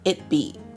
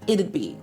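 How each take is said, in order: First: The d sound is dropped before 'be'. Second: A d sound is pronounced before 'be'. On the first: The speaker calls it wrong. "not it be" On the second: The speaker calls it right. "you have to say it'd be"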